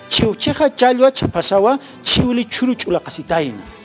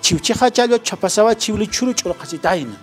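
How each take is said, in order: First: It is said at a slower pace. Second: It is said at a faster pace.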